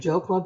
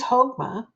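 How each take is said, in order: First: The word begins with an English J sound. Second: The word begins with a breathy H-like sound. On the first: The speaker calls it wrong. "you want to say Jokma" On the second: The speaker calls it right. "it's pronounced like Ha, like the Spanish uh, version of the J"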